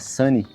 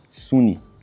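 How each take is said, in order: First: The word has a natural English pronunciation. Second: The word is read with Brazilian-style sounds. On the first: The speaker calls it right. "em vez de falar Sunny" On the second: The speaker calls it wrong. "ler de um jeito meio brasileiro essas palavras... E aí estaria errado"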